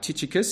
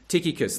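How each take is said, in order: First: The ch is not said as a k. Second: The ch is said as a k sound. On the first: "is the other pronunciation" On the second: "the CH is pronounced with a K in the Greek"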